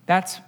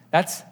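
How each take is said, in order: Both takes have the same delivery.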